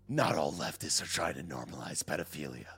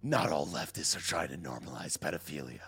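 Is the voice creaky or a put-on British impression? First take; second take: creaky; creaky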